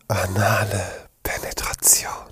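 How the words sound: It is said in a breathy voice.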